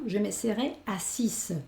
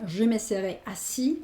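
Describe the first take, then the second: First: Assise slowly, with the final s sounded like a z; feminine French pronunciation. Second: Assis with the final s silent, ending on the i; masculine French pronunciation. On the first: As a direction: stretch assise so the closing z is clearly heard. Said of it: "el femenino". (assise pronunciado despacio, con la s final sonora como "asiz") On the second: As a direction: say assis as a-SI, no s sound at the end. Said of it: "el masculino". (assis pronunciado "asi", sin la s final) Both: Shown as a demonstration.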